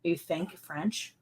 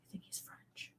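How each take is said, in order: First: Said in the usual way. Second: Hushed, unvoiced question; a secret whispered question; whispered aside. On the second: Real, not acted. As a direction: whisper it so only one person hears.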